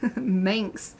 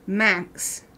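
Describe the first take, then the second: First: The vowel sounds like the letter A. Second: The vowel sounds like the vowel in man. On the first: "I've always heard it Manx, like A" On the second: "So like man with an X on the end"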